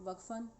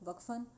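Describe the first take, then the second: Both takes have the same delivery.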